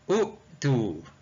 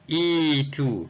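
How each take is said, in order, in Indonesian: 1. Kata ini dimulai dengan vokal u. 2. Kata ini dimulai dengan vokal i. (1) "kalau ikut kaedah S M S kita, maka kena baca u-tu. Tapi hamzah wasal ini tak dibaca sebegitu" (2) "Yang sebenarnya kita kena baca itu ni, itu"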